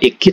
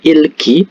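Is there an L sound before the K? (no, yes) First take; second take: no; yes. First: The word is said without an l sound. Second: The word has an l sound before k. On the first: The speaker calls it wrong. "bukan iki" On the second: The speaker calls it right. "tapi ilki"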